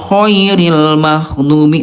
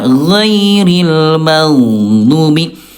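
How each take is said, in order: First: The first consonant is voiceless with audible breath. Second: The first consonant is voiced without escaping air. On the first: The speaker calls it wrong. "huruf ghain kalau ada udara nanti hurufnya akan tertukar dengan kho" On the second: The speaker calls it right. "harusnya ghairil maghdubi"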